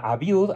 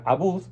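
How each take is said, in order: First: The second syllable has a 'y' glide: 'byood'. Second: The second syllable has no glide: 'bood'. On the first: "Hay quien pronuncia Abiud" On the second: "hay quien pronuncia Abud"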